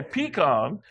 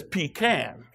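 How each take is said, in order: First: "pecan" slow and deliberate, pee-kahn; pee-KAHN pronunciation. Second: "pecan" slow and deliberate, pee-can; pee-CAN pronunciation. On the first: Shown as a demonstration. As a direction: say "pecan" slowly with an open ah. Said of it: "I say pecan". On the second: Retold or imitated. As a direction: say "pecan" slowly, rhyming with can. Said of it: "She says pecan".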